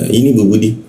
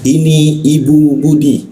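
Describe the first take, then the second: First: It is said quickly, words run together. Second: It is said slowly, each word clearly. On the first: It is ordinary everyday talk. "kalau secara umum kan mungkin uh, cara pelafasannya" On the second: The speaker is teaching the listener. "Rasul akan lebih pelan, kata-katanya jelas, ya, seperti seorang guru mengajarkan kepada anaknya"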